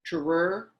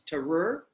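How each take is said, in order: First: The T and R are said apart, slowly. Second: The T and R are said apart, slowly.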